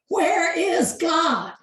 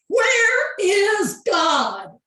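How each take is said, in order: First: It is said louder and more sternly. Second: It is said loudest, almost shouted.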